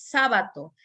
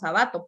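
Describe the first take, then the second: First: The stress is on the first syllable. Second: The stress is on the second syllable. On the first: The speaker calls it right. "es una palabra esdrújula" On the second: The speaker calls it wrong. "si lo pronunciamos Sabato"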